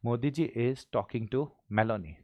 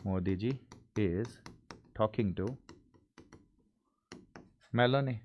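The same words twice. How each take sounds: First: Slow, steady, whole sentence together; all in one go. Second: Slow, word by word with long gaps; halting read with pauses between words; hesitant chunked reading; broken into pieces. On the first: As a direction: read the full line without breaking. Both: Shown as a demonstration. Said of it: "हिम्मत करके पूरा साथ में बोल जाओ sir".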